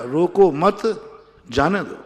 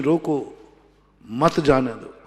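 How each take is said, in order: First: Slow "रोको मत" rising on "मत", then "जाने दो" falling; "मत" के बाद विराम. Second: "रोको", a clear pause, then "मत जाने दो" in one falling phrase; "रोको" के बाद विराम. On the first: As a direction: hold "रोको मत" together, break, release "जाने दो". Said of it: "एक स्वल्प विराम आगे लगा दिया". ("रोको मत" खींचकर साथ, फिर "जाने दो") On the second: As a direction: stop after "रोको", keep "मत" with "जाने दो". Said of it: "स्वल्प विराम लगा दिया". ("रोको" पर रुकें, फिर "मत जाने दो" साथ बोलें) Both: Shown as a demonstration.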